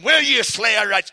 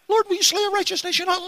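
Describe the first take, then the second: First: It is said in a mocking tone. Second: It is said in a frightened tone.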